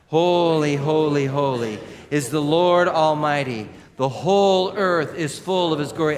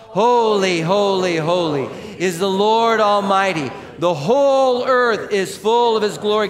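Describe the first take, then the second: First: It is read at normal volume. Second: It is read loudly.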